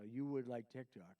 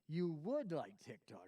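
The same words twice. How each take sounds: First: It is said in a plain, sincere tone. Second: It is said in a mocking, sarcastic tone.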